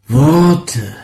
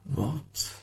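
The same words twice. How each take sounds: First: Loud. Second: Faint. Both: Acted. Sound poem, loud then faint.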